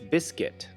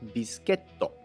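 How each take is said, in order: First: It is said with an American English pronunciation. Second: It is said with a Japanese pronunciation. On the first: "In American English" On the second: "in Japanese"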